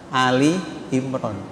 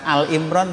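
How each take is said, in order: First: The first word is said as two-syllable 'Ali'. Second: The first word is said as short 'Al'. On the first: The speaker calls it right. "Jadi Ali ya" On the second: The speaker calls it wrong. "bukan Al Imran Bu ya"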